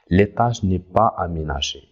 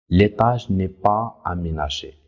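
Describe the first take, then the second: First: It is read at normal speed. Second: It is read slowly.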